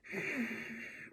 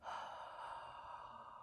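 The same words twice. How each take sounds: First: Deep throaty sigh. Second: Fogging-a-mirror exhale; soft open-mouth sigh. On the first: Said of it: "you don't wanna be like". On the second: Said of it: "you go". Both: Shown as a demonstration.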